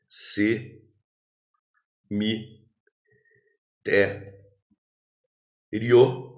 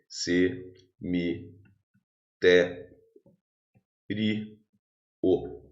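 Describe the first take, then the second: First: The ending 'rio' is said as one syllable. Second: The ending 'rio' is split into two syllables. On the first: The word is a paroxytone ending in a diphthong. "Você pode interpretar isso aqui como um paroxítono terminado em ditongo" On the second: The word is a proparoxytone. "Ou você pode separar silabicamente assim"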